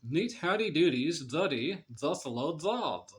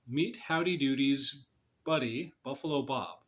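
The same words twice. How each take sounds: First: The B and M sounds become D and N. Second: The B and M sounds are clear and normal. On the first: "with your mouth in the proper position, try pronouncing it this way"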